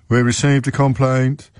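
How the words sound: It is said in a bored police-officer voice.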